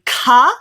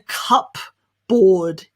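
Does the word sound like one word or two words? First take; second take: one word; two words. First: It sounds like one word with a reduced ending. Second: It sounds like two full words, cup and board. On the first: The speaker calls it right. "Instead, we say cupboard" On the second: The speaker calls it wrong. "It's definitely not a cup board, even though that's the way it's written"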